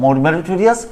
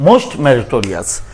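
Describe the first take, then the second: First: Said in the usual way. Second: Most meritorious dragged out, most leaned on; slow down and hit most in most meritorious; teacher contrasting most meritorious by slowing; slow, stressed most. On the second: Shown as a demonstration. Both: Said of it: "এই যে এখানে meritorious".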